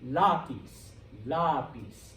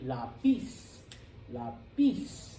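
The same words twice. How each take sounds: First: Lapis as LA-pis, falling after LA; stress on first syllable. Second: Lapis as la-PIS, rising at the end; stress on last syllable. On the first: Teacher gives the word for pencil, lapis stressed on LA. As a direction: punch LA in lapis. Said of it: "putting stress on the second to last". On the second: Teacher shows the rule-following version, lapis stressed on PIS. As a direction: hit PIS hard in lapis. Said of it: "If it followed the rule". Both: Shown as a demonstration.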